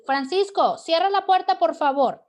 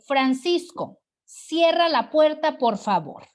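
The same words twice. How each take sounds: First: Orden aguda y fuerte, exclamada; orden entonada. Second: Fuerte orden de ejemplo; orden exclamativa. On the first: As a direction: call out the command, voice pitched right up. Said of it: "Estoy entonando". (imperativo exclamado en voz alta y aguda) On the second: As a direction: give it as a firm, raised-voice request. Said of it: "Con signos de admiración". (orden en voz alta) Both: Shown as a demonstration.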